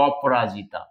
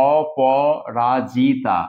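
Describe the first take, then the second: First: অপরাজিতা run together as op-ra-ji-ta; colloquial contracted form. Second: অপরাজিতা drawn out as o-po-ra-ji-ta; syllable by syllable. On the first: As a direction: squeeze অপরাজিতা into four syllables, no vowel after p. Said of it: "উচ্চারণ করে বলে ভাষাবিজ্ঞান বলছে". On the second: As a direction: slowly count out all five syllables of অপরাজিতা. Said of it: "একটা করে syllable আছে". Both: Shown as a demonstration.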